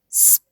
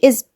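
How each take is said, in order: First: It starts directly with the s sound. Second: A vowel and buzzing z come before it. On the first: The speaker calls it right. "اقول سب سب" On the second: The speaker calls it wrong. "ما اقولش ازب"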